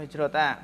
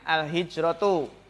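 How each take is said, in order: First: The word ends with an a vowel. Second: The word ends with a u vowel. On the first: The speaker calls it wrong. "Atau hijrota" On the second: The speaker calls it right. "Jadi yang pertama itu di domah biasanya"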